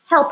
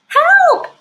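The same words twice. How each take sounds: First: It is said plainly, without much feeling. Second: It is said in an upset, worried voice.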